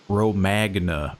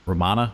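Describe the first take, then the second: First: The g is pronounced, with an American accent. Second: The g is silent in the name. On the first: "We'll put a real American spin on it" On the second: "I feel like the G would be silent"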